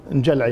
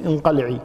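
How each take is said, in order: First: انجلعي with qaf turned to a j sound; dialect pronunciation. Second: انقلعي with a clear q sound; standard pronunciation. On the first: Sheikh giving the Kuwaiti dialect form of the word. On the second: Sheikh giving a dismissive divorce word in standard form. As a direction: say انقلعي with the classical qaf. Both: Shown as a demonstration. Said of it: "احنا نقول مثلًا انقلعي".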